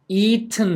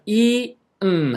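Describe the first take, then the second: First: The ending is said plainly, without nasal release. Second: The ending is released through the nose. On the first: "발음은 eaten 해도 되고요" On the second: "코로 내도 됩니다"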